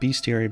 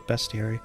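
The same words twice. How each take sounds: First: The first syllable sounds like 'beast'. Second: The first syllable does not sound like 'beast'. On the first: "I keep saying bestiary because it's about the beasts" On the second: "some people say bestiary"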